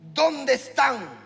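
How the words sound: It sounds like a scolding father.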